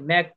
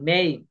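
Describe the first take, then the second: First: The vowel sounds like the 'a' in 'cat'. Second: The vowel sounds like the 'a' in 'cake'. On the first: The speaker calls it wrong. "ম্যাক না" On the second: The speaker calls it right.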